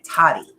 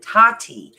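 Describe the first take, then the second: First: The name is said clipped, with the syllables cut short. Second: The name is said fully, with both syllables drawn out. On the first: This is how people from Brooklyn say it. "I'm from Brooklyn. We have to cut the word" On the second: This is how most people say it. "I know everyone's like Tati"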